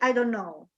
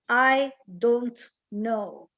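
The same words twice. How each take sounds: First: The words are quick and run together. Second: The words are slow, each one said separately. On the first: "But normally speaking" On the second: "if you say it slowly"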